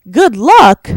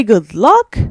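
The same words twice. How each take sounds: First: Loud, high, disbelieving GOOD LUCK; GOOD LUCK pitched up loud, appalled; incredulous echo. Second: Said in the usual way. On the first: Retold or imitated. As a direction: throw it back in sheer disbelief. Incredulously echoes their goodbye. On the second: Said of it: "they say some tearful goodbyes".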